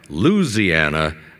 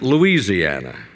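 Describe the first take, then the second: First: The word is said with four syllables. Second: The word is said with five syllables. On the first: This is how a native of the state says it. "pronounced by Morton as a four-syllable word" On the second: This is how many other people say it. "by many others as five"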